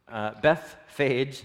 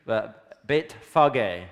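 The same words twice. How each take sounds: First: Bethphage in the usual English way; English pronunciation. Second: Beit Fage said slowly, the Hebrew way; Hebrew pronunciation. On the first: Showing how English speakers say the place name, plain. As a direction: say Bethphage the anglicised way. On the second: Teaching the congregation the Hebrew name, slow and careful. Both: Shown as a demonstration. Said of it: "how we butcher it in English".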